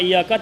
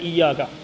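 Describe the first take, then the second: First: The y sound is short and single. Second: The y sound is held long and doubled. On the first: The speaker calls it wrong. "iyaka tak boleh" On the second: The speaker calls it right. "syaddah tang syaddah, iyaka kena iyaka"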